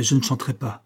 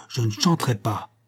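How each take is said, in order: First: Said in the usual way. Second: Stubborn stress on "chanterai"; "chanterai" punched with insistence on its first syllable; emphatic refusal. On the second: A narrator's reading. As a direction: hammer out "chanterai" as a final refusal. Refusal repeated after "Entendez-vous?.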